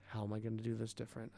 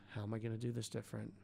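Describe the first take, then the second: The two takes are said the same way.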